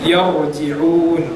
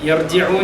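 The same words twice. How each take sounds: First: The r sound is heavy and full. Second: The r sound is light and thin. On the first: The speaker calls it right. "യർ റാ തഫ്ഖീമിന്റെ അക്ഷരം" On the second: The speaker calls it wrong. "അപ്പം യർജിഊൻ അല്ല"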